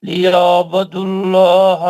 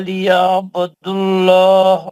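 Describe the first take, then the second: Both takes have the same delivery.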